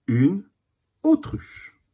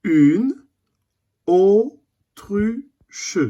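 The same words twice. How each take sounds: First: Said in the usual way. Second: Autruche drawn out with rising tune; slow teaching syllables. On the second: Shown as a demonstration. A teacher reading the word autruche slowly to the class. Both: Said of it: "Premier dessin".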